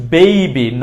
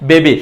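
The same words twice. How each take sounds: First: Put-on "baby" as drawn-out "bei-bi"; correct pronunciation. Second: Put-on "baby" as "be-bi"; plain e in "baby"; wrong pronunciation. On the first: Teacher using it in a sentence, "baby" with ei. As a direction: glide e to i in "baby". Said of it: "not baby". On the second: Teacher naming what to avoid, "baby" without a glide. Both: Shown as a demonstration.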